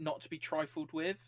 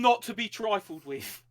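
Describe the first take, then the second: First: It is said in the speaker's ordinary accent. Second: It is said in a put-on Cockney accent.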